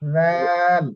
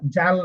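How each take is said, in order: First: It begins with a soft tongue-to-teeth th sound. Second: It begins with a hard j sound. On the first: The speaker calls it right. "নরম করে" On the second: The speaker calls it wrong. "জাল না, জাল যেন না হয়"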